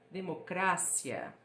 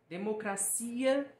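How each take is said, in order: First: The stress falls on the syllable 'cra'. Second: The stress falls on the syllable 'ci'. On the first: This is the Spanish pronunciation. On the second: This is the Portuguese pronunciation.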